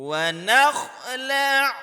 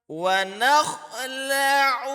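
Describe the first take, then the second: No difference in how they are said.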